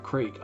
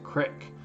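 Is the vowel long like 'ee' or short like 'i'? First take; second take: long ee; short i. First: The vowel is long, as in 'see'. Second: The vowel is short, as in 'sit'. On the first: "most of you probably are from the Pacific Northwest and pronounce it creek" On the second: "I like to pronounce it crick"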